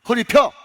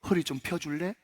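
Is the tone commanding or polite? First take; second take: commanding; polite. First: It is said as a blunt command. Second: It is said as a gentle request.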